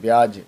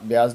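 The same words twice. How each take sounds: First: The word ends with a j sound. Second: The word ends with a z sound. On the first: The speaker calls it right. "जे से लिखे" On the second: The speaker calls it wrong. "ब्याज नहीं"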